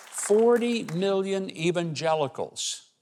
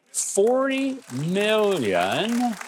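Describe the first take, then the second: First: "forty million evangelicals" slow and high, falling at the end; measured emphasis. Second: FORTY MILLION stretched very slowly and pitched high; drawn-out emphasis. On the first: Speaker naming to the audience who stays home, deliberate emphasis. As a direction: repeat "forty million evangelicals" deliberately, less stretched, then let it fall. Repeats figure, completing the phrase.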